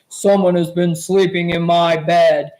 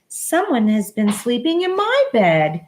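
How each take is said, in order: First: It is said in Papa Bear's big voice. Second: It is said in Mama Bear's middle-sized voice.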